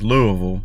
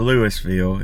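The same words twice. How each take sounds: First: It is said the local Kentucky way. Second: It is said a non-local way. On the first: The speaker calls it right. "that's how we say it down here in Kentucky" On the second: The speaker calls it wrong. "or Louisville"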